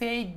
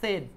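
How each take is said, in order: First: The vowel is a long 'ay' sound. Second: The vowel is a short 'e' sound. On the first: The speaker calls it wrong. "এটার উচ্চারণ কিন্তু সেইড না" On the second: The speaker calls it right. "এটার উচ্চারণ হলো সেড"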